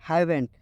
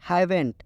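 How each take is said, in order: Both takes have the same delivery.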